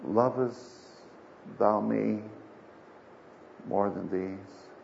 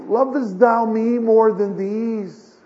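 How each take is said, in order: First: Slow, low, hushed question with long pauses; Jesus asking gravely. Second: Slow, raised, louder solemn question; Jesus asking insistently. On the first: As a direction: let each phrase sink lower and softer. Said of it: "he asked him the third time". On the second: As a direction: draw it out high and loud, pressing for an answer. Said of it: "he asks him the second time". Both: Acted.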